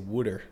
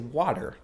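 First: It is said in a Philadelphia accent. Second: It is said in a general American accent.

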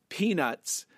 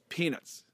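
First: Both syllables carry nearly equal stress. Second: The second syllable is softened and weaker. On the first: The speaker calls it right. "it's closer to like two very equally stressed syllables" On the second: The speaker calls it wrong. "the way you're doing it is you soften the second syllable"

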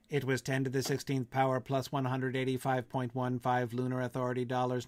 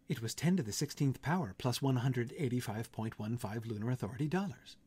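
First: A flat, robotic monotone with no inflection at all. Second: A quiet, gentle voice with faint, fake inflection. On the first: "that's not how I would read Mike's voice there" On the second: "a quiet, gentle computer voice"

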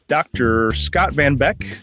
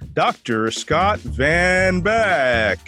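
First: It is said in a plain, normal voice. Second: It is said like a booming sports announcer.

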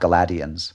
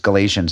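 First: The word sounds like 'Gladiator'. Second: The word does not sound like 'Gladiator'. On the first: The speaker calls it wrong. "I think I want it to sound like Gladiator more" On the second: The speaker calls it right. "that it was Galatians"

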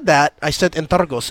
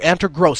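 First: No R sound follows the G. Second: An R sound follows the G. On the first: "I said Antergos" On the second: "The R was after. Antergross, that's what he would say"

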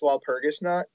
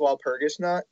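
First: It is said with an American accent. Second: The same.

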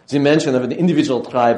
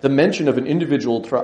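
First: It is spoken with an imitated German accent. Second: It is spoken in the speaker's ordinary accent.

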